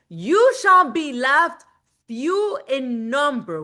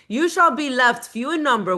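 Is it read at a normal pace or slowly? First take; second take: slowly; normal. First: It is read slowly. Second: It is read at a normal pace.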